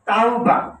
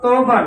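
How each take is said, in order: First: The first syllable sounds like 'tao'. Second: The first syllable sounds like 'tou'. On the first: The speaker calls it right. "শব্দটা হচ্ছে তাওবা" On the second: The speaker calls it wrong. "শব্দটা তৌবা না"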